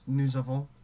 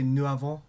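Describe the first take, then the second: First: The s of nous links as a z. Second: The s of nous is silent, no link. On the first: The speaker calls it right. "break it with the consonant" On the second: The speaker calls it wrong. "you don't say"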